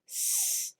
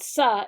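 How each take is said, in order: First: The consonant is said alone without a vowel. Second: The consonant is followed by an added vowel. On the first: The speaker calls it right. "it's s" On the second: The speaker calls it wrong. "It's not sa"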